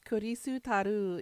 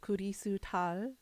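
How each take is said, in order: First: The name ends in a vowel sound. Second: The name ends in an L-like consonant. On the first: This is the Japanese form of the name. "the name has to end in a vowel" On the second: This is the Korean form of the name. "it's an R L sound at the end"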